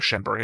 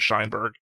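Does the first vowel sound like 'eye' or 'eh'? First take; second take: eh; eye. First: The first vowel sounds like 'eh'. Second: The first vowel sounds like 'eye'. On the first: The speaker calls it right. "that's written like Schenberg" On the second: The speaker calls it wrong. "I keep saying Scheinberg"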